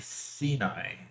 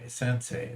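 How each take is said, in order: First: The name is said like 'Sinai'. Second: The name is said like 'Sensei'. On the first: The speaker calls it wrong. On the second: The speaker calls it right.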